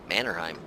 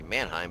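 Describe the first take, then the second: First: The name is said with three syllables. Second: The name is said with two syllables. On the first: This is how it is actually said. The speaker calls it right. "but it's Mannerheim" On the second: This is how the speaker expected it to be said. The speaker calls it wrong. "I figured it'd be Mannheim"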